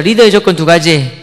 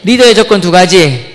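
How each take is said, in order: First: 리더의 조건 두 가지 said slowly, each word spaced; slow demo. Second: 리더의 조건 두 가지 slow and louder; louder repeat. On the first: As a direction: model the phrase for repeating. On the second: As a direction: say it again, louder, for the class. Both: Shown as a demonstration. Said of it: "따라해보세요".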